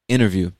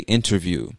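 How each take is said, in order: First: The T after the N is dropped. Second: The T after the N is clearly pronounced. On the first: "it's almost as if the T just disappears" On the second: "they would pronounce the T in the standard way"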